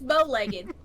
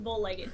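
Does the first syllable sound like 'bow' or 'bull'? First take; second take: bow; bull. First: The first syllable sounds like 'bow'. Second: The first syllable sounds like 'bull'. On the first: The speaker calls it right. "it's bow-legged" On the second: The speaker calls it wrong. "I call it bull-legged"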